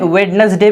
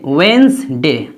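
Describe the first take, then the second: First: The word is said with three syllables. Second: The word is said with two syllables. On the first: "दूसरे accent में यानी American वगैरह में" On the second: "London की English है उसमें"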